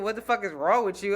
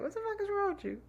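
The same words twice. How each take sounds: First: Said in the usual way. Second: Much higher, softer, playful inflection; mock teasing squeal. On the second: Shown as a demonstration. Host echoes cohost's clowning take, high mocking squeal. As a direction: pitch it way up like a joke. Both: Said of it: "broke down everything I said with just the inflection".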